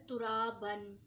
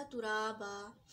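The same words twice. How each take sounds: First: तुराबन stretched very slowly, ending on a clear नून sound; teacher models तुराबन with the full tanween; drawn-out demo word. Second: तुराबा said slowly, ending on a long आ with no नून; teacher models तुराबा as the pause form; pausal form demo. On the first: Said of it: "इसमें देखें हर्फ". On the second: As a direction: stop on तुराबा with a long open आ. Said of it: "क्या हो जाएगा". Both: Shown as a demonstration.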